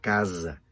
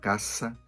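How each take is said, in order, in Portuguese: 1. A consoante do meio é o som de z, vibrado. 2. A consoante do meio é o som de s, sibilante. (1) "Uma S que deveria soar sonora" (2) "ele fala caça"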